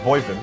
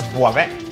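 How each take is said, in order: First: The name is said with English sounds. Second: The name is said with French sounds. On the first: The speaker calls it wrong. "anyone anglophone reads that as Boyven" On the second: The speaker calls it right. "but it's Boivin"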